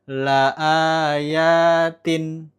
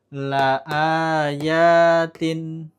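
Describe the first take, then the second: No difference in how they are said.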